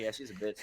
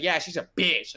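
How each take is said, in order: First: Hushed retold admission; quiet confirmation. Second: Higher-pitched imitation of blurting it out; punchy retold exclamation; retold loud outburst. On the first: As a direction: say it under the voice, off speaker. Repeats it once off speaker. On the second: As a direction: mimic someone saying it too loudly on speakerphone. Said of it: "like, super loud".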